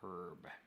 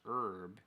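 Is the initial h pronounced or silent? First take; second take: pronounced; silent. First: The word starts with an h sound. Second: The word starts without an h sound. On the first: This is the British way. "the H in the U K" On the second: This is the American way. "in the U S"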